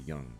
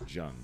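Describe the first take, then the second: First: The name begins with a Y sound. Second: The name begins with a J sound. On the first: The speaker calls it right. "It's actually Young" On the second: The speaker calls it wrong. "It's mispronounced Jung"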